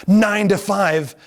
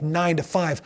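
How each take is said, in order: First: Slow, loud, drawn out nine to five; stressed nine to five. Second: Said in the usual way. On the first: Retold or imitated. Telling the audience how dull the job was, slow emphatic. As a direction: spell out the dull hours. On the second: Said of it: "first plain mention".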